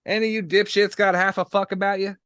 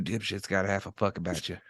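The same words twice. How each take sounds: First: Shouting it across the room; loud. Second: Same question, toned down; quieter. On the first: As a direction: bark the question loudly. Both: Acted. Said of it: "keep your voice down".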